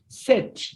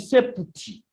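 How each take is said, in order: First: The p sound is left out of the word. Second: The p sound is pronounced in the word. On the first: The speaker calls it right. "This P is not heard in the pronunciation" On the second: The speaker calls it wrong. "This one is written septi"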